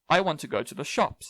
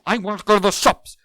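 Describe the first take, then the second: First: It is said in a flat, neutral tone. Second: It is said in an angry tone. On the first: "That's very neutral" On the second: "That's angry"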